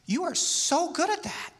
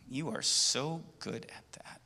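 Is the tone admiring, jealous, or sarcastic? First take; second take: admiring; jealous. First: The voice sounds warm and admiring. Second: The voice sounds grudging and jealous. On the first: The speaker truly admires the listener's skill. "that's what I'm really admiring. I think that's great. That's admiration" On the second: The speaker envies the listener's skill. "there's a little bit of jealousy"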